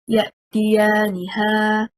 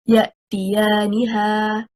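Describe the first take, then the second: First: The stress falls on the final 'ha' syllable. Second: The stress falls on the 'ni' syllable. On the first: The pronoun becomes a separate noun, as if someone called 'her'. The speaker calls it wrong. "The incorrect performance, if we stress on حركة الها" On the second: The pronoun is part of the word: they come to her. The speaker calls it right. "The correct performance of the word is يَأْتِيَانِهَا. Stressing on حركة النون"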